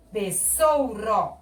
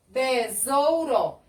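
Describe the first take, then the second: First: "besouro" slowly with a hissed s; som de dois S. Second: "Besouro" slowly, syllable by syllable, with z; som de Z. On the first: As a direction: stretch "besouro" as be-ssou-ro. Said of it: "Se eu colocasse dois S's". ("besouro" devagar, com som de S) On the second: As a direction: stretch "Besouro" as be-zou-ro. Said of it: "Eu falo Z". ("Besouro" silabado devagar, com Z) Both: Shown as a demonstration.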